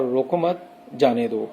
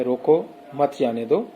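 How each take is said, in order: First: روکو مت, then a clear stop, then جانے دو; pause after مت. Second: روکو مت جانے دو run together in one breath; no pause. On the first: Teacher showing students how a pause flips the meaning. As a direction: break the line after مت so it means don't stop. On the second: Teacher showing students the sentence with no pause. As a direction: say روکو مت جانے دو without stopping anywhere. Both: Shown as a demonstration. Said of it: "گفتگو کرنے والے کا جو پاز تھا".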